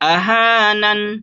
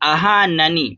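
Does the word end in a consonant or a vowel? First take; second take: consonant; vowel. First: The word ends on the consonant n. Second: The word ends with a short i vowel. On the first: "रुकने की सूरत में आखिरी हर्फ के ऊपर जस्म आ जाता है" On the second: "नून ज़ेर नी"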